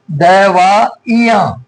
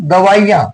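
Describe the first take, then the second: First: दवाइयां very slowly as "da-vaa-i-yaan"; syllable-by-syllable. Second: Said in the usual way. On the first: Shown as a demonstration. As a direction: spell out दवाइयां by ear, pausing between syllables. Teacher breaks word to show spelling.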